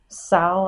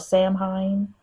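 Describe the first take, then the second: First: It is said as one short syllable, like 'Sal'. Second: It is said as the spelling suggests, 'Sam-hain'.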